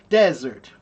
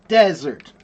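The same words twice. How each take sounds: The two takes are said the same way.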